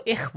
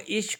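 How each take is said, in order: First: "اخ" ending in a throaty kh; Swiss German ich. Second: "اش" ending in a soft sh; standard German ich. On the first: Teacher shows how Swiss say it, "اخ" with kh. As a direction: say "اخ" with kh in place of sh. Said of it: "سوائز میں، وہ اش کو اخ بولتے ہیں". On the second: Teacher contrasts with Swiss speech, saying "اش" with sh. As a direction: say "اش" with sh, not kh. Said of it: "وہ اش کو اخ بولتے ہیں". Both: Shown as a demonstration.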